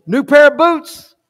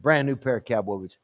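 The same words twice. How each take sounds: First: High, slow, rising question; intrigued surprise. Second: Low, soft, matter-of-fact reply; quiet confirmation. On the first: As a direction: perk up at a tempting bribe. Gary tempted by the offer. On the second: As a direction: confirm the offer under your voice. Pastor confirms the bribe, quietly. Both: Acted.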